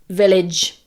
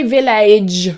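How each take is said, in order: First: The second vowel is the short 'i' sound. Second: The second vowel is not the short 'i' sound. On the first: The speaker calls it right. "It's an I sound, like in it" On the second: The speaker calls it wrong. "Don't say village"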